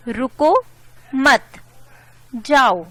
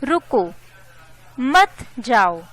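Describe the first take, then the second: First: "रुको मत" first, a long pause, then "जाओ"; louder मत, then जाओ set apart; pause after मत. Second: "रुको" alone, a clear pause, then "मत जाओ"; pause after रुको. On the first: Teacher shows the comma telling someone to go, pausing after मत. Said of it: "comma ने रुकने से मना किया". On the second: Teacher shows the comma telling someone to stay, pausing after रुको. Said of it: "comma ने रुकने का इशारा किया". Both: Shown as a demonstration.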